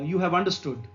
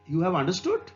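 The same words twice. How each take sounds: First: The pitch falls at the end. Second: The pitch rises at the end. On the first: It states a fact. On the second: It asks a question.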